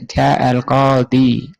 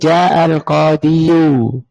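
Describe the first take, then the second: First: The word ends on a plain i sound. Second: The word ends with a full yu ending. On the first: The case ending is only implied, which feels light. The speaker calls it right. "minta ringan-ringan saja" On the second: The case ending is shown openly, which feels heavy. The speaker calls it wrong. "Kalau mau ditampakkan harus berbunyi"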